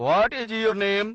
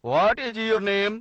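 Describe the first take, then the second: First: 'What is' is said as two full words. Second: The same.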